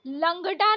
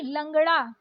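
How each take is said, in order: First: लंगड़ा with hard ड stop; wrong hard D. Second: लंगड़ा with flapped ड़; correct flapped ड़. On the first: Teacher showing learners the mistake, hard-D लंगड़ा. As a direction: say लंगड़ा with D, no flap. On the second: Teacher correcting learners, flapped लंगड़ा. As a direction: flick the ड़ in लंगड़ा. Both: Shown as a demonstration. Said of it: "नहीं".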